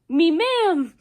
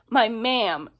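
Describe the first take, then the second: First: The first word is said like 'me'. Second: The first word is said like 'my'. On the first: The speaker calls it right. "it's supposed to be me ma'am. Kind of like um Seamus" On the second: The speaker calls it wrong. "he's not quite saying it right. He's saying my"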